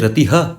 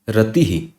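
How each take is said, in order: First: The final breath is followed by an 'a' vowel. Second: The final breath echoes the preceding 'i' vowel. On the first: The speaker calls it wrong. "you don't pronounce it as ratiha" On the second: The speaker calls it right. "You pronounce it as ratihi"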